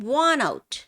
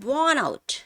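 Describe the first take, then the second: No difference in how they are said.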